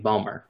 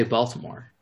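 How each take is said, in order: First: "Balmer" squeezed to two syllables, no t; local Balmer. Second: "Baltimore" with all three syllables; full Baltimore. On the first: Speaker quoting how locals say the city, clipped-down Balmer. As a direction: swallow the middle of Baltimore into "Balmer". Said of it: "rather than saying Balmer". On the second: Speaker contrasting own way with the local one, full Baltimore. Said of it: "I say Baltimore rather than saying Balmer". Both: Shown as a demonstration.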